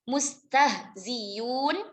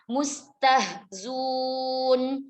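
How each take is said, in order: First: The hamza is replaced by a clear y sound. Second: The hamza is dropped and z takes an u. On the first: "Diibdalkan hamzahnya dengan ya" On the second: "huruf hamzahnya dibuang"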